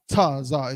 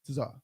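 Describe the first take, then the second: First: It begins with a separate ta syllable. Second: It begins with a blended ts sound. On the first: The speaker calls it wrong. "Like not Tazah" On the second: The speaker calls it right. "It's Tazah"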